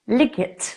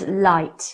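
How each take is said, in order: First: It is said as two syllables, sounding the g. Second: It is said as one syllable, with silent gh. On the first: The speaker calls it wrong. "says liget, liget, but we don't say that" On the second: The speaker calls it right. "if you look at the word light"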